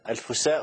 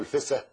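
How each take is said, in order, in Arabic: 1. للكلمة نطق رسمي بالعربية الفصحى. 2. للكلمة نطق عامي مصري. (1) "تلتزم باللغة العربية الفصحى" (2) "أنت قلت النطق العام بتاعها"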